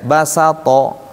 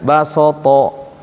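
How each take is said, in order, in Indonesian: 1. Vokalnya tetap tipis dan ringan dari awal sampai akhir. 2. Vokalnya menjadi tebal dan gelap, seperti o. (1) "Ini kan basato. Harusnya begitu ya" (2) "Ada orang yang bacanya basoto ke bawah ini"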